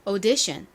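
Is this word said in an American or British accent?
British. British accent, first vowel a rounded 'o' sound. "영국식 발음부터 한번 가볼까요? ... 에이유는 영국식으로 O 발음이 나죠"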